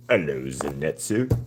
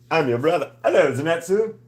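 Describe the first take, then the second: First: Said in the usual way. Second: High, playful put-on voice saying hello; high mock greeting. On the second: Streamer greets her drawing in a high silly voice. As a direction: pitch it way up like a silly brother.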